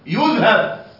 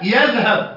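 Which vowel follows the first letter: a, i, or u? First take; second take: u; a. First: The first syllable has the vowel u. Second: The first syllable has the vowel a. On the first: The speaker calls it wrong. "وليس ضمة" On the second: The speaker calls it right. "والياء عليها فتحة"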